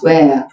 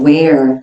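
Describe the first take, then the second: First: The word ends with the r sound dropped. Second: The word ends with a rolled r sound. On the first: "where 날려버리거나" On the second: "where 굴리거나"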